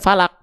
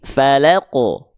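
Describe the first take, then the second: First: The final q stops with no echoing bounce. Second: The final q is released with an echoing bounce. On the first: The speaker calls it wrong. "bukan cuman falak" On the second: The speaker calls it right. "tapi falaqo. Itu ya, pantulkan dia"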